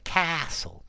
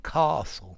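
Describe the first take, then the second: First: The word is said in an American accent. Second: The word is said in a British accent. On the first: "in American I would say the castle" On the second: "in my British accent, a castle"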